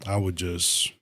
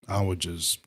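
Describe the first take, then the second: No difference in how they are said.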